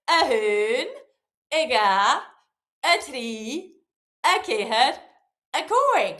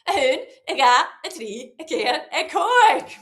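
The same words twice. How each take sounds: First: It is counted at a moderate pace. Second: It is counted as fast as possible.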